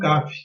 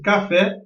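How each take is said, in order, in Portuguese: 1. A tônica está na primeira sílaba. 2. A tônica está na última sílaba. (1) "e não caf" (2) "o som mais forte está, nesse caso da palavra café, na sílaba fé"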